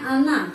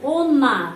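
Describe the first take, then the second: First: The first vowel sounds like a. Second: The first vowel sounds like o. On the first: This is how the word is actually read. The speaker calls it right. "tapi bacanya ana" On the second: This is how the word is written. The speaker calls it wrong. "Kita menulis on, ona"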